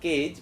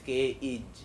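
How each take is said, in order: First: The vowel sound is short and clipped. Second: The vowel sound is stretched and drawn out. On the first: The speaker calls it wrong. "as if it is not cage" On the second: The speaker calls it right. "but it is cage"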